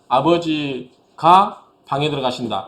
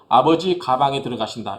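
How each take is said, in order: First: The break falls after the syllable 'ga'. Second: The break falls before the syllable 'ga'. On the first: Father goes into the room. The speaker calls it right. "그냥 우리가 국어책 읽때" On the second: Father goes into the bag. The speaker calls it wrong. "이렇게 읽을 때도 있어요. 그건 뭐냐면 호흡 때문에"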